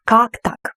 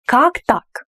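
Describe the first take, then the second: First: Как punched, так lighter; stress on Как. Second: Surprised. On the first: Teacher stressing Как for students. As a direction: lean on the first word Как. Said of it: "The first word is more emphasized". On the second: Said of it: "You are surprised". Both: Shown as a demonstration.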